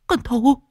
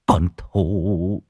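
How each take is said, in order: First: High-pitched panicked echo; alarmed. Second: Low, drawn-out, choked name; tearful. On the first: Wife hearing her daughter's name, high and alarmed. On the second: Husband grieving over his daughter's name, tearful. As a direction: trail the name out in grief. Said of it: "nước mắt lưng tròng". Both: Acted.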